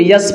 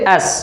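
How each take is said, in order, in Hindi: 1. 'S' अक्षर के नाम की शुरुआत 'y' की ध्वनि से होती है। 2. 'S' अक्षर के नाम की शुरुआत साधारण स्वर से होती है। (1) "यस नहीं" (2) "क्या पढ़ेंगे?"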